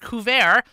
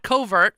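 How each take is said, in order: First: The word is not said like English 'covert'. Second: The word is said like English 'covert'. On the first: The speaker calls it right. "couvert, not covert" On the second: The speaker calls it wrong. "which is the way many people pronounce it"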